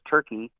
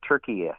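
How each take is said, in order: First: The name is said with two syllables. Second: The name is said with three syllables. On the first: This is how most of the world says it. "in the rest of the world says Turkey" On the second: This is how the locals say it. "but they say Turkey"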